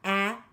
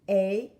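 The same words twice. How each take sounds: First: The vowel sounds like the 'a' in apple. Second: The vowel sounds like the 'a' in acorn. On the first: "the letter A making short vowel A" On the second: "or A, acorn"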